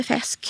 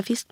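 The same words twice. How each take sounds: First: "fäsk" with an open short e in place of i. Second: Said in the usual way. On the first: Shown as a demonstration. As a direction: open the vowel of fisk into "fäsk". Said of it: "så fisk blir fäsk". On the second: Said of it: "när det är kort som ett E-ljud".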